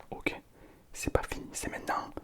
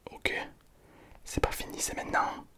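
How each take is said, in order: Both takes have the same delivery.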